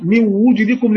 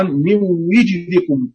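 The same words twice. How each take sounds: First: من وجدكم with u on the waw; min wujdikum with damma. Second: من وجدكم slow, kasra on the waw; min wijdikum with kasra. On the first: Teacher reciting majority damma reading. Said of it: "والضم". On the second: Teacher reciting Rawh's kasra reading. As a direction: draw out من وجدكم with i. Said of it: "وهما الكسر لروح". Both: Shown as a demonstration.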